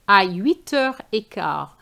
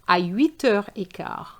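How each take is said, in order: The two takes are said the same way.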